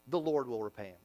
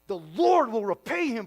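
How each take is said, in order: First: It is said in a calm, letting-go tone. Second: It is said in a vengeful, threatening tone. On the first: Revenge is left to God. The speaker calls it right. "That's the tone here" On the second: The speaker wants revenge. The speaker calls it wrong. "you might think he says"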